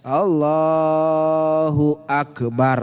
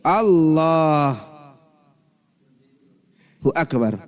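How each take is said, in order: First: Akbar follows Allahu with no pause. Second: There is a pause before Akbar.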